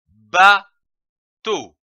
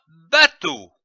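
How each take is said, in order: First: "bateau" split as ba, pause, teau; syllable by syllable. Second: Said in the usual way. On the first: Shown as a demonstration. Teacher joining two syllables for beginner readers, syllable by syllable. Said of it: "L'association de ces syllabes". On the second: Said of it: "donne le mot bateau".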